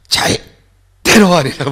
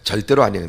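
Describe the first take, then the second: First: It is said strongly, in Gwangju style. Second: It is said softly and politely.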